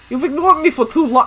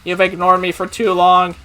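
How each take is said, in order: First: It is a tough, gangster-like voice. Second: It is a flat, mechanical robot voice. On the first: "I sound like a gangster" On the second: "I'll go with robot voice"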